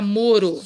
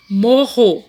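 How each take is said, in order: First: MORO with a light tongue-tap R; single tapped R. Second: MORRO loud, with an h-like double R; strong double R. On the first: ("moro" com R brando, de um toque só) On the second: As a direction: punch out "morro" as "mo-ho". ("morro" forte, com R duplo bem marcado) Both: Shown as a demonstration. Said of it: "Tira um R".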